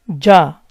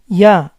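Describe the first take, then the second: First: The consonant sounds like a soft English j. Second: The consonant sounds like a soft ee glide. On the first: "It resembles the English letter J, but softer" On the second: "pronounced softer to the point that can resemble an E sound"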